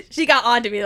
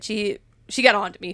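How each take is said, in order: First: Laughing through the words; amused, half-laughing retelling. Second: Said in the usual way. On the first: Real, not acted. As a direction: laugh as you repeat it, a bit louder.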